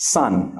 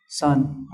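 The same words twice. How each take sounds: First: Said in the usual way. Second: "sun" tossed off short and weak; unstressed word. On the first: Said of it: "It's just normal". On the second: Shown as a demonstration. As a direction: say "sun" with no stress at all. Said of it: "doesn't have stress".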